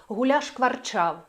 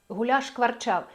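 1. Два звуки ш зливаються в один. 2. Два звуки ш зливаються в один.

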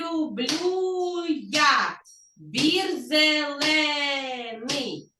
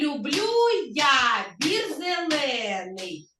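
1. Це звучить повільніше. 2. Це звучить у звичайному темпі й гучності.

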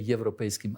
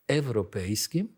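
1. Слово починається зі звуку 'ye'. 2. Слово починається з простого звуку 'e'. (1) "не європейським" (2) "але європейським, і тому воно називається ЕКУ, а не ЄКУ"

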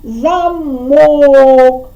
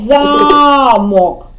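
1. Наголос на другому складі. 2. Наголос на першому складі. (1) "По якій голосній ми голосом вдарили? По О" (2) "В першому наголос падає на А"

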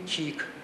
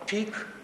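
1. Перший приголосний вимовляється м'яко. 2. Перший приголосний вимовляється твердо.

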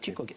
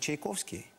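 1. Назву скорочують до Chikoki. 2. Назву вимовляють повністю: Chaikovsky. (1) "І вони кажуть, Чікокі" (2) "їм важко вимовити Чайковський"

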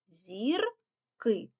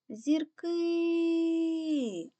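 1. Слово вимовляють двома окремими складами. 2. Слово вимовляють цілком, останній голосний тягнуть. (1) "проговорюємо його частинками" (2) "Гукаємо це слово"

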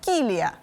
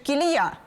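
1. Наголос на першому складі. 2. Наголос на другому складі.

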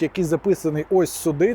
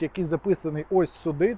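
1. Фоновий шум чутно без шумогасіння. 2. Фоновий шум приглушується шумогасінням.

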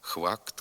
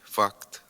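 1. Слово починається зі звуку «khv». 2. Слово починається зі звуку «f». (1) "його заміняють двома звуками «х» і «в»" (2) "слід вимовляти"

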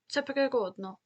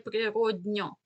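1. Звук [н] перед закінченням твердий. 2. Звук [н] перед закінченням м'який. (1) "а не природньо" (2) "Не твердий звук"

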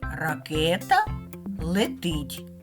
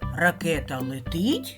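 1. Це вимовляється простою розповідною інтонацією, що спадає. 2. Це вимовляється питальною інтонацією, що зростає. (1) "Два слова, як на схемі" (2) "А як це речення буде звучати зі знаком питання?"

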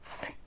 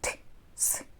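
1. Звуки «т» і «с» зливаються разом дуже швидко. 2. Звуки «т» і «с» вимовляють швидко, але окремо. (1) "І ще швидше" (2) "тож кажемо швидше"

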